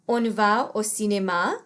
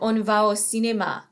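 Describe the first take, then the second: First: The voice rises at the end like a question. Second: The voice falls at the end like a statement. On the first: It asks whether to go. "asking if they would like to go to the movie theater" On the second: It proposes going. "is more of a statement"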